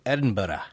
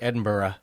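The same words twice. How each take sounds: First: It is said with the local Scottish pronunciation. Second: It is said with an American pronunciation. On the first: The speaker calls it right. "nicely done" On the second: The speaker calls it wrong. "I think if you're American, you say Edinburgh"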